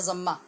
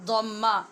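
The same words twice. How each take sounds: First: The first consonant is a plain 'z' sound. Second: The first consonant is an emphatic Arabic 'd' sound. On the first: This is the common Urdu way of saying it. "आम उर्दू अंदाज में हम इसको ज़म्मा भी बोल लेते हैं" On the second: This is the Arabic way of saying it. "ज़म्मा द्वाद के साथ कहते हैं"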